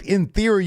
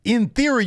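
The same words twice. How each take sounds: First: "In theory" said high with "theory" hit again; stress on theory. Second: "In theory" pitched high with "theory" punched; stress on theory. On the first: Cena hammering Austin Theory's name, "theory" stressed high. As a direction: repeat "In theory", high and mocking. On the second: Cena mocking Austin Theory's name, "theory" stressed high. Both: Retold or imitated.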